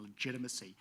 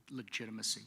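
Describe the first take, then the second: First: Said in the usual way. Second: Legitimacy set apart on its own, each syllable given deliberate weight; single out legitimacy as the key word; emphasized word. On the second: Shown as a demonstration. Officer repeating legitimacy on its own to stress it. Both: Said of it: "And I'll emphasize that word".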